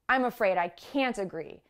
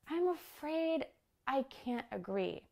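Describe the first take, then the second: First: The voice is low, harsh and blunt. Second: The voice is high, light and polite. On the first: The disagreement is expressed bluntly and directly. "a lower, harsher tone" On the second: The disagreement is expressed politely. "in a high, light, kind of nice, polite tone"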